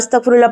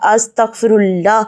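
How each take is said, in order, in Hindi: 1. यह जल्दी और हड़बड़ी में बोला गया है। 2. यह धीरे और सुकून से बोला गया है। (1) "जल्दबाजी में तेज तेज ... ऐसे नहीं पढ़े" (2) "सुकून से हमें अस्तगफिरुल्लाह पढ़ना चाहिए"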